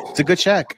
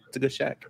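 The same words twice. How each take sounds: First: Said in the usual way. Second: Much softer, muttered under the breath; softer repeat. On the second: Real, not acted. Host defending the Shaq impression, repeated much softer. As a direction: say it again under your breath.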